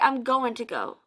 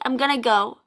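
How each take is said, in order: First: Going to is said in full, every sound clear. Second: Going to is run together and reduced to gonna.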